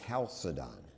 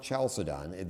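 First: Chalcedon begun with a K sound, KAL-suh-don; hard K. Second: Chalcedon begun as in "church", CHAL-suh-don; wrong CH sound. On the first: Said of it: "which is pronounced K". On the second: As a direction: say the Ch of Chalcedon as an English ch. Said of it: "It's not Chalcedon". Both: Shown as a demonstration.

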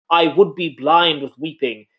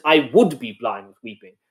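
First: Said in the usual way. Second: "would" leaned on as the key word; stress on would. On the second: Shown as a demonstration. Explaining Margaret's hollow grief to co-host, stress on "would". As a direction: put the weight on "would". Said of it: "emphasizing that".

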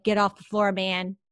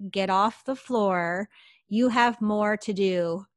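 First: Firm, no-nonsense retold command; means business. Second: Slow, deliberate command in clear English. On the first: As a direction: give a brisk order that means business. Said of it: "that voice meant biz". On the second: Retold or imitated. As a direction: spell it out slowly, as a disembodied command. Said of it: "in very clear English".

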